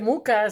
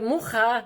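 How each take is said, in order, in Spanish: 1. La consonante del medio es un sonido k simple. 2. La consonante del medio es un sonido gutural aspirado. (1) "le llaman muca" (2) "Si es eh, muja"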